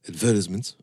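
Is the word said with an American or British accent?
British. It is said with a British pronunciation.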